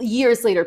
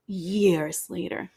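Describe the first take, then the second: First: "years later" said crisply with "years" stressed and a falling end; corrected retake. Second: Slow, stretched "years later" with a rising end; drawn-out first try. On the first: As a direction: restate "years later" firmly, landing on "years". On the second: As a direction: drag out "years later" like a dramatic reveal. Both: Shown as a demonstration. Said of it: "I'm saying l-, years later".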